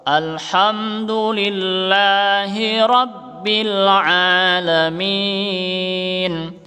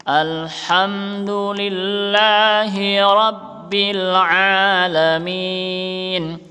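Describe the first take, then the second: Both takes have the same delivery.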